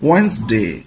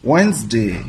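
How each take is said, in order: First: The d is silent, giving two syllables. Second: The d is silent, giving two syllables.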